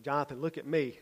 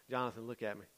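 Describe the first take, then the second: First: "me" stressed with a falling end; firmer second try. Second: Soft, lower request for attention; quiet first try. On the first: Leader to a boy looking over his head, firm stress on "me". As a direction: insist on "me", firm but not shouted. Repeats it as boy looks away. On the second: Leader to a boy looking over his head, quiet and low. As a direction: ask him calmly, low and soft. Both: Retold or imitated.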